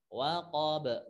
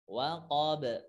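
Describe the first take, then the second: First: The final b releases with a faint a. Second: The final b releases with a faint a.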